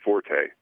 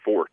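First: The word is said as two syllables. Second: The word is said as one syllable. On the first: It is the common pronunciation that people use. The speaker calls it wrong. "instead of forte" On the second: It refers to a person's strength. The speaker calls it right. "you're supposed to pronounce it fort"

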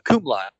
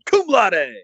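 First: It is announced in a plain, ordinary way. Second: It is announced with loud, excited enthusiasm.

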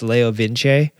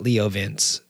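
First: The name is said with a non-American pronunciation. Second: The name is said with an American pronunciation. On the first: The speaker calls it right. "you know that that's Leo Vince" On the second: The speaker calls it wrong. "and not Leo Vince"

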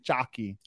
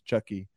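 First: The name has a Serbian pronunciation. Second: The name has an American pronunciation. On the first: This is how it is said in the original language. "in Serbian it's supposed to be Chucky" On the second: This is how English speakers usually say it. "the American pronunciation is Chucky"

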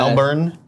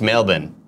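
First: The R sound in the word is pronounced. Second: The R sound in the word is dropped. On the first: "I always pronounce it Melbourne" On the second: "they say that there's no R"

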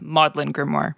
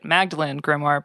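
First: The first word has two syllables, Maud-lin. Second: The first word has three syllables, Mag-da-lene. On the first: The speaker calls it right. "but it's Maudlin Grimoire" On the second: The speaker calls it wrong. "it makes total sense for you to want to pronounce it as you familiarized yourself with it"

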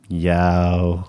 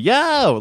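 First: It is said in a sad, deflated way. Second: It is said in a cheerful, upbeat way.

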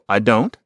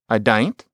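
First: The standard form with the vowel of don't. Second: The vowel changes, giving dain't. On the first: "So I don't" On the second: "You can imagine maybe saying dain't in a certain kind of British or maybe Australian accent"

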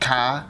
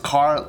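First: The word is said British-style, without an r. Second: The word is said with an r at the end. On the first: "like British style, like ka" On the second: "he says car"

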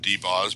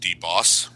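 First: The name ends with a z sound. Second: The name ends with an s sound. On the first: This is the nickname the group uses. "We've been calling him D-Boz, B-O-Z" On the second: This is the version everyone else uses. "everybody else is D-Boss, B-O-S-S"

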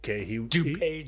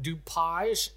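First: It is said just as it is spelled. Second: It is said in a foreign, old-world style. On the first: This is how locals say it. The speaker calls it right. "spelled how it appears. So I would say it would be DuPage" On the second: This is not how locals say it. The speaker calls it wrong. "we wouldn't call it DuPage"

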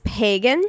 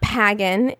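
First: The first vowel is not a hard A. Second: The first vowel is a hard A, as in bag. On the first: The speaker calls it right. "It's pagan" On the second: The speaker calls it wrong. "It's not, not pagan"

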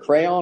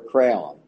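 First: The word is said with two syllables. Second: The word is said with one syllable. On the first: "A crayon or a crown?" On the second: "there's people say that differently"

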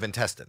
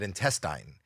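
First: The word has an American pronunciation. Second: The word has a Canadian pronunciation. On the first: The speaker calls it right. "instead of intestine" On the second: The speaker calls it wrong. "I'm Canadian... they would yell cut because I said intestine"

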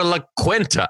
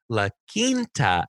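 First: Quinta begins with a kw sound. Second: Quinta begins with a plain k sound. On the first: This is how people from Michigan say it. The speaker calls it wrong. "our Michigan asses grew up. We're like" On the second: This is how people in another area say it. The speaker calls it right. "She goes K-E-N-T-A-H"

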